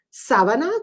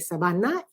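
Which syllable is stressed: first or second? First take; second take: first; second. First: The stress is on the first syllable. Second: The stress is on the second syllable. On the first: The speaker calls it wrong. "quiero decir sábana, como en la cama" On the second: The speaker calls it right. "en vez de sabana"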